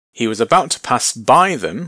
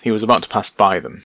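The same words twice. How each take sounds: First: Said in the usual way. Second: Quicker, offhand read, x1.4; he was about to pass by them, quick and casual; effortless, breezy. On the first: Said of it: "What's going on there with pass by?". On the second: Shown as a demonstration. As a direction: toss it off as if it costs nothing.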